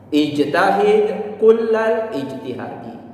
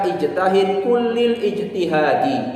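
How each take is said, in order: First: The word kull is followed by an a vowel. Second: The word kull is followed by an i vowel. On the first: The speaker calls it right. "Bacalah kalimat kul itu dengan harokat fathah" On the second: The speaker calls it wrong. "Jangan juga membaca ijtahid kullil ijtihadi, juga tidak tepat"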